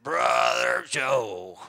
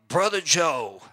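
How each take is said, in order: First: Put-on "Brother Joe." drawn out very slow in a loud, lower Southern accent; strong Southern accent. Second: Said in the usual way. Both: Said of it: "with that strong Southern accent".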